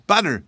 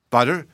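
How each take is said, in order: First: High, loud, falling "Butter"; matter-of-fact answer. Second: Loud "Butter" rising into a question; incredulous cry. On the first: Boy telling mammy what drips from his hat, high falling answer. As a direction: answer "Butter" firmly, dropping at the end. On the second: Mammy repeating the boy's answer, loud disbelieving question. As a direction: echo "Butter" back in disbelief. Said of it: "cried his mammy". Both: A narrator's reading.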